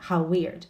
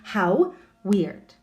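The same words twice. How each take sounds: First: The W sound is pronounced once, linking words. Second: The W sound is pronounced twice, separately. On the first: The speaker calls it right. "the W sound is shared" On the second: The speaker calls it wrong. "So we don't have to say"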